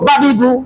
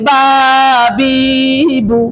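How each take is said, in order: First: The vowels are said short. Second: The vowels are drawn out long. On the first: The speaker calls it right. "এই হলো হরকতের উচ্চারণ" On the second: The speaker calls it wrong. "আমি টানলাম"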